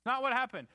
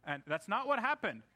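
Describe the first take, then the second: First: Emphatic repeat. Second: Said in the usual way. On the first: Real, not acted.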